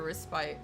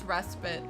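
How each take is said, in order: First: The second syllable sounds like the word 'spite'. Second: The second syllable does not sound like 'spite'. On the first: "Like I'm resting just to spite you" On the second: "I'm pretty sure it's respite"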